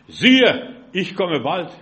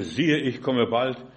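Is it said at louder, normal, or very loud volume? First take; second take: louder; normal. First: It is read a bit louder. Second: It is read at normal volume.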